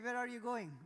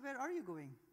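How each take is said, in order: First: The voice sounds harsh and serious. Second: The voice sounds soft and friendly. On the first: The speaker calls it wrong. "if it's harsh or serious" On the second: The speaker calls it right. "the tone of the voice have to be soft"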